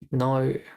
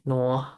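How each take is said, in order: First: The word ends on a plain o vowel. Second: The word ends with an added r-like sound. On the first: The speaker calls it right. "It's no" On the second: The speaker calls it wrong. "There's no R in there"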